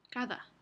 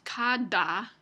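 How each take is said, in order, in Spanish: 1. La d es una fricativa suave. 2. La d es una oclusiva dura. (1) "Y es esta fricativa" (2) "No decimos cada en español"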